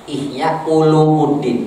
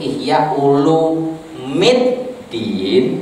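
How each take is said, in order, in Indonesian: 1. Vokal sebelum suku kata terakhir itu u. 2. Vokal sebelum suku kata terakhir itu i. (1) "Ihya Ulumuddin itu muskil" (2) "yang bisa itu Ihya Ulumiddin"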